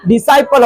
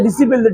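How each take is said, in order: First: The middle syllable sounds like 'sigh'. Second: The middle syllable sounds like 'sip'. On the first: The speaker calls it right. "डिसिपल नहीं क्या होता है? डिसाइपल होता है।" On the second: The speaker calls it wrong. "इसको डिसिपल बहुत सारा पढ़ते हैं"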